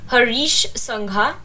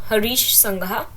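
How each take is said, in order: No difference in how they are said.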